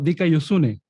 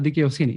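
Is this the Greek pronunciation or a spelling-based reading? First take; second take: spelling-based; Greek. First: It is pronounced as a reader sounds out the spelling. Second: It is pronounced the way a native Greek speaker does. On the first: "cuando uno lo lee, eh, se, se lee como" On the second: "me dijo que se eh, pronunciaba"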